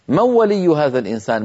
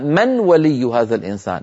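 First: The n merges straight into the w sound. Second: The n is clearly pronounced before the w. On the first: The speaker calls it right. "فتقول العرب في زمن النبوة من ولي" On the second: The speaker calls it wrong. "ولا يقولون"

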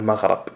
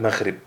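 First: The vowel before the final consonant is a. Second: The vowel before the final consonant is i. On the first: This is the form the rule predicts. "القياس على ما ذكر الناظم تقول مغرب" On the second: This is the form the Arabs actually used. "ولكن العرب قالت مغرب"

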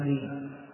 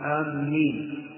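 First: The first vowel is kept short. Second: The m sound is doubled and held. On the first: "تكون بالقصر آمين" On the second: "وبعض يشدد الميم آمين"

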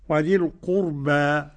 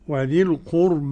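First: The final vowel is an open a sound. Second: The final vowel leans strongly toward i. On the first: "الفتحه" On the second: "الإمالة"

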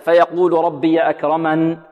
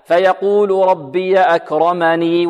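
First: The final ya vowel is dropped at a stop. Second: The final ya vowel is pronounced, flowing onward. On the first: The reciter stops at this word. "إذا وقفنا عليها هكذا" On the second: The reciter continues into the next words. "وإذا وصلنا هكذا"

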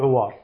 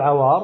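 First: The first vowel is a rounded 'u' sound. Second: The first vowel is an open 'a' sound. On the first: "وتجوز بالضم" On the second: "تجوز بالفتح"

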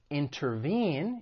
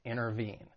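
First: The T after the N is clearly pronounced. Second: The T after the N is dropped.

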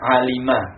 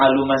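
First: The middle vowel is an i sound. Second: The middle vowel is a u sound. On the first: The speaker calls it right. "fi'il madi itu dibaca alima" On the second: The speaker calls it wrong. "oh saya baca aluma saja, enggak bisa"

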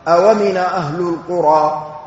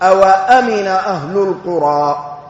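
First: No glottal stop; w takes its vowel: awamina. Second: The w carries a, then a glottal stop. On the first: "نقل حركة الهمزة إلى الواو" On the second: "بفتح الواو"

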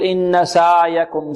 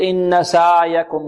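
First: The ayn flows on too long and softly. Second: The same.

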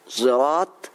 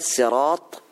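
First: The first sound blends emphatic s with z. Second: The word starts with a plain s sound. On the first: "بإشمام الصاد صوت الزاي" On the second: "بالسين"

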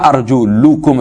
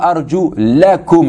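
First: The vowel before -kum is a short u. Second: The vowel before -kum is a short a. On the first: The speaker calls it wrong. "C'est pas arju lukum avec la dhamma" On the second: The speaker calls it right. "avec la fatha"

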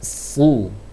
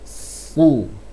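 The two takes are said the same way.

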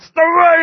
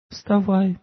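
First: It is said harshly and forcefully. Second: It is said softly and gently. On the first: The request is an order. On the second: The request is made kindly.

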